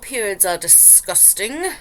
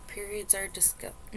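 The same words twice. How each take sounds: First: It is read in a put-on accent. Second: It is read in the speaker's normal voice.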